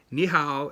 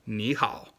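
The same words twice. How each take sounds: First: 你好 said with flat, wrong tones; 你好 toneless like a beginner. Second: 你好 with tone change, slow and careful; 你好 said slowly as ní hǎo; correct tones. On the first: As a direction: botch the tones on 你好. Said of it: "It's not 你好". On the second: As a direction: model 你好 slowly with proper tones. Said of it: "it's 你好". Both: Shown as a demonstration.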